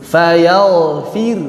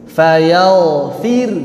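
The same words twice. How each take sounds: Both takes have the same delivery.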